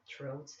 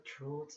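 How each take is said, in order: First: Said in the usual way. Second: "throat" with an Irish accent; Irish pronunciation of "throat". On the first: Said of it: "not throat". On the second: Shown as a demonstration. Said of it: "way, way back in the throat thing".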